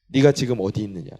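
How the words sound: It sounds harsh and stern.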